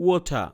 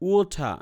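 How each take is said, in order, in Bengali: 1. শেষের r বাদ যায় আর t স্পষ্ট শোনা যায়। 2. শেষের r বাদ যায় আর t স্পষ্ট শোনা যায়।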